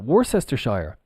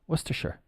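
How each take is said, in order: First: Every written syllable of the word is sounded out. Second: The middle syllables are shortened, like Wooster-shire. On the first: The speaker calls it wrong. "No, absolutely not" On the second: The speaker calls it right. "this is pronounced Worcester. And then if we add the Shire on, it becomes Worcestershire"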